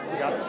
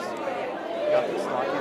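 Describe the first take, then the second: First: Said in the usual way. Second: Slow whispered encouragement. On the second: Real, not acted. Coach whispering encouragement to a nervous volunteer. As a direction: breathe it softly into her ear.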